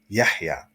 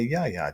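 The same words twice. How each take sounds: First: The middle h is a deep throaty h. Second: The middle h sound is left out entirely. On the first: The speaker calls it right. "the correct pronunciation is Yahya" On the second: The speaker calls it wrong. "just totally skip over the, the ha sound"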